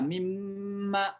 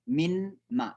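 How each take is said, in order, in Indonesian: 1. Bunyi n menyatu menjadi bunyi m ganda. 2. Bunyi n diucapkan terpisah sebelum ma. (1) "tapi dibaca mimma" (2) "itu asalnya dari min, dari kemudian ma"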